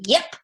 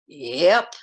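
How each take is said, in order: First: It is said in an eager, energetic way. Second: It is said in a weary, low-energy way. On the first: He is keen to go after the man. "yes, sirree, I want to get that guy" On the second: He is worn out from riding. "That implies he's tired"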